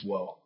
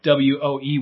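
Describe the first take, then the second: First: Woe said like the surfer exclamation whoa, drawn out. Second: Woe said as the solemn word of lament, slow; biblical woe. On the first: Preacher contrasting woe with a Keanu Reeves whoa. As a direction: say woe as a dude's amazed whoa. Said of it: "Keanu Reeves woe". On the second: Preacher spelling out the biblical woe, slow and solemn. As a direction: give woe its old biblical weight. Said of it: "like W O E woe". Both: Shown as a demonstration.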